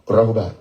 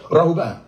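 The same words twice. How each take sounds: First: "Rahuba" low and falling; low falling Rahuba demo. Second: "Rahuba" pitched up, falling; another tone. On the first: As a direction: say "Rahuba" dropping low at the end. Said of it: "That's a tone". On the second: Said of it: "That's another tone". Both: Shown as a demonstration.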